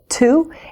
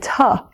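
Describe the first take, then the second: First: The vowel is a full, clear 'oo'. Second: The vowel is reduced to a short 'uh'. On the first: The speaker calls it right. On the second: The speaker calls it wrong.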